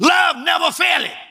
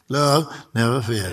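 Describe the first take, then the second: First: It is said forcefully, with strong emphasis. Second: It is read flatly, without emphasis. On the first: The speaker calls it right. "We're going to say this with some power" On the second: The speaker calls it wrong. "Y'all reading"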